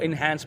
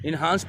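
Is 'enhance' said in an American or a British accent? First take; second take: American; British. First: It is said in an American accent. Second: It is said in a British accent. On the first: "American people इसको इन्हांस पढ़ते हैं" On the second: "British लोग जो हैं इसको इन्हांस पढ़ते हैं"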